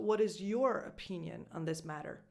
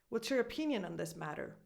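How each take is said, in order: First: 'Your' is stressed with a full vowel. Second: 'Your' is unstressed and reduced to a schwa. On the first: "unless you're stressing this word for a specific reason" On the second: "this aw, becomes a schwa"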